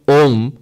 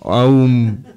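First: The vowel is a single O sound. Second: The vowel is a glide from A to U. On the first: The speaker calls it right. "that's the correct pronunciation actually" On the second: The speaker calls it wrong. "So the correct pronunciation is Auma. Aum. No"

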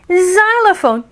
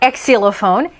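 First: The first sound is a Z sound. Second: The first sound is not a Z sound. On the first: The speaker calls it right. "right up in the front, sounds like a Z" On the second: The speaker calls it wrong. "not xylophone"

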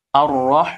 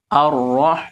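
Both takes have the same delivery.

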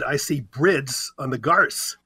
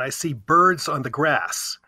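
First: The r sound precedes the vowel in 'brids'. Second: The r sound follows the vowel in 'birds'. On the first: This is how it was said 1,500 years ago. "1,500 years ago, I would have said" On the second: This is the present-day pronunciation. "I'm looking out the window right now"

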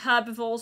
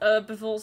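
First: The word has a non-American pronunciation. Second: The word has an American pronunciation.

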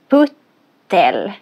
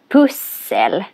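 First: The middle consonant is pronounced as t. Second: The middle consonant is pronounced as s. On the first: The speaker calls it wrong. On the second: The speaker calls it right.

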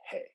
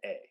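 First: The word starts with a clear h sound. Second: The word starts with a vowel, no h sound. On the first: The speaker calls it right. "They say hey" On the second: The speaker calls it wrong. "they don't say a"

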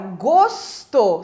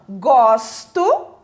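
First: The stressed vowel is a closed O. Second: The stressed vowel is an open O. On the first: It is the noun meaning taste or flavor. "som fechado do O" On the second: It is the verb meaning to like. "Com esse O mais aberto, com esse som aberto"

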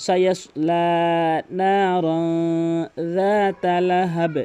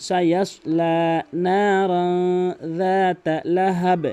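Both takes have the same delivery.

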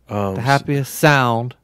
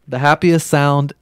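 First: The word sound is stressed. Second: The word sound is not specially stressed.

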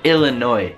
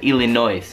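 First: The word ends without an S sound. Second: The word ends with an audible S sound. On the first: The speaker calls it right. "la S in entrambi i casi si toglie" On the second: The speaker calls it wrong. "Non diciamo"

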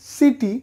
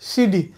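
First: The middle consonant is a clear T sound. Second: The middle consonant sounds like a D. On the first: "আমরা বলি সিটি" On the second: "এই টি এর উচ্চারণগুলো হবে ডয়ের মতো"

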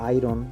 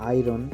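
The two takes are said the same way.

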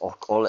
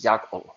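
First: The word begins with a plain 'o' vowel. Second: The word begins with a 'ya' sound. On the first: One dialect says it this way. "Some people pronounce it as okol" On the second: Another dialect says it this way. "some people pronounce it as yakol"

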